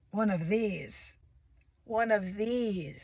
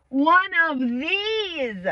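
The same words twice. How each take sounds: First: Quiet, lower and drawn out; soft, slow, falling delivery; hushed mock aside. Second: Mock wail, higher and very slow; exaggerated drawn-out wail. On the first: Vlogger joking about having a weird child, hushed mock dread. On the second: Vlogger joking about having a weird child, drawn-out mock wail. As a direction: stretch each word out high.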